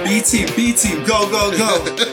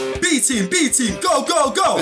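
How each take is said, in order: First: The voice sounds sad and hesitant. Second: The voice sounds energetic and hyped. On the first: The speaker is not really excited about the team. "You can sense the sadness and hesitation in my voice" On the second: The speaker believes in the team. "Let me try and get a bit more hype for that"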